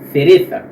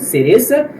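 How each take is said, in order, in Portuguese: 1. A primeira consoante é um som de th. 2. A primeira consoante é um som de s simples. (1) "na Espanha com a língua entre os dentes" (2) "nos países latinos é pronunciado de forma comum"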